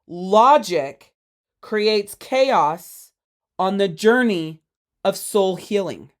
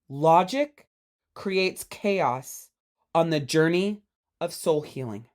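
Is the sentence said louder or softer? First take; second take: louder; softer. First: The sentence is said more loudly. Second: The sentence is said at normal volume.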